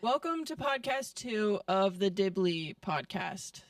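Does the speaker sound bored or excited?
bored. It is said flatly, without excitement.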